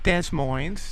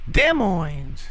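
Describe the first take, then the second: First: Both S sounds are pronounced aloud. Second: Both S sounds are left silent. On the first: The speaker calls it wrong. "not Des Moines" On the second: The speaker calls it right. "you both S's are silent"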